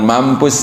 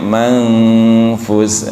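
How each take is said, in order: First: The nasal before the f sounds like m. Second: The nasal before the f sounds like ng. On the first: The speaker calls it wrong. "Bukan mampus gitu kan" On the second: The speaker calls it right. "tapi mangfus"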